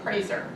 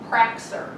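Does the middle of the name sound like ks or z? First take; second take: z; ks. First: The middle consonant sounds like a plain z. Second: The middle consonant sounds like ks. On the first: This is the family's own pronunciation. The speaker calls it right. "we pronounced it Prazer" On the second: Outsiders read the C aloud. The speaker calls it wrong. "their teachers pronounced it Praxer"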